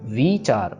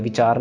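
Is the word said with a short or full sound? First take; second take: full; short. First: The word is said with a full sound. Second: The word is said with a short, clipped sound. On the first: The speaker calls it right. "विचार पढ़ना है" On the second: The speaker calls it wrong. "इसको ऐसे छोटी सी sound नहीं देनी, ऐसे विचार नहीं पढ़ना"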